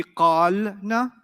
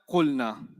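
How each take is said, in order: First: "qalna" with a long drawn-out aa, qaal-na; "qalna" slowly as qaaal, then na; long vowel, sukoon. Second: "Qulna" with a short u and no long vowel; "Qulna", first vowel cut short to u; corrected short form. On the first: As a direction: stretch the first vowel of "qalna", close on l, then add na. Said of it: "a long sound followed by a sukoon". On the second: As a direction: say "Qulna" compactly as qul-na, pitch falling. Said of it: "Problem solved". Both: Shown as a demonstration.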